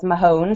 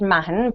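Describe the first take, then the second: First: The name has the common Canadian pronunciation. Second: The name has its own original pronunciation. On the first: This is how people in Canada usually say it. The speaker calls it wrong. "everyone in Canada says Mahone" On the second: This is how the family name is really said. The speaker calls it right. "my last name is actually pronounced Mahon"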